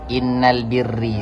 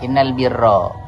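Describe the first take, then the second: First: The last word ends in an 'i' vowel. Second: The last word ends in an 'a' vowel. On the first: The speaker calls it wrong. "Ada orang membaca membaca hadis innal birri. Salah apa benar?" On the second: The speaker calls it right. "Berarti yang benar"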